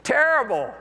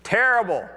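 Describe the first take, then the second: First: An even higher, hammed-up "Terrible." falling hard at the end; mock-groaned reply. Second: Glum reply. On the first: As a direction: exaggerate the fed-up groan for laughs. Preacher repeats fishermen's answer. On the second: Retold or imitated. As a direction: groan it out like a fisherman with an empty net. Weary fishermen answer from boat.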